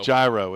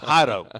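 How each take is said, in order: First: The name begins with a J sound. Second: The name begins with an H sound. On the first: The speaker calls it wrong. "You can't look at uh, J A I R O and pronounce that" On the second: The speaker calls it right. "It's not. It's it's Hado"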